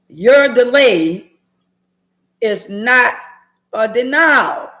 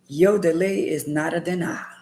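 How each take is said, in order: First: It is said louder. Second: It is said at normal volume.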